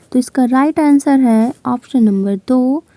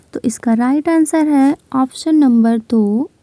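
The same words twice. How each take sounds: The two takes are said the same way.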